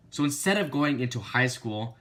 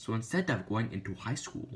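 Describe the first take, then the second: First: Each word of "So instead of going into high school" hit hard and louder; every word stressed. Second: Said in the usual way. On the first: Shown as a demonstration. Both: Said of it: "I emphasized every single word".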